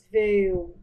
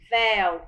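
First: The vowel is said closed. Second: The vowel is said open. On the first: The speaker calls it wrong. "Você não diz véu" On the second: The speaker calls it right. "você diz véu, é som aberto"

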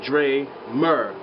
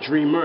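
First: The name is split into two separate parts. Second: The name is said as one smooth word. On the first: The speaker calls it wrong. "people who just separate names when they see it" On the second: The speaker calls it right. "which a lot of people pronounce it right"

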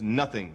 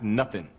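First: The word ends with a full 'ing' sound. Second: The word ends with a clipped 'in' sound. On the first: The speaker calls it right. "The word is nothing" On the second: The speaker calls it wrong. "not nothing. There's an ing on the end of it"

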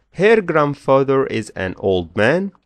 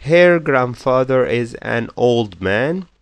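The two takes are said the same way.

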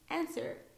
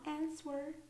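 First: The W is silent, not pronounced at all. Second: The W is pronounced as a clear sound. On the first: The speaker calls it right. "the two words with a silent W" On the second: The speaker calls it wrong. "not answer"

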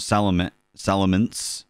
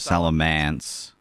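First: The final syllable rhymes with 'fence'. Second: The final syllable rhymes with 'dance'. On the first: The speaker calls it right. "for Salamence" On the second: The speaker calls it wrong. "people call it Salamance"

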